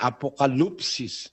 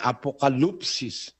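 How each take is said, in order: First: The vowel after the L sounds like oo. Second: The vowel after the L sounds like oo.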